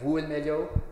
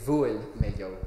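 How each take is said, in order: First: The first consonant is a w sound. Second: The first consonant is a v sound. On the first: "So either as a w, like in Connemara or Ulster" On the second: "or a V"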